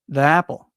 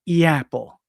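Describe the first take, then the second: First: 'The' is said as a short 'thuh' sound. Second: 'The' is said as 'thee', linked to apple. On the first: "I almost always say the, even when there is a vowel sound" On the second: "it feels more natural to have E before a vowel sound"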